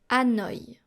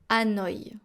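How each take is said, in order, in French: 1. La terminaison se prononce comme deux voyelles, 'o-ee'. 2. La terminaison se prononce comme deux voyelles, 'o-ee'.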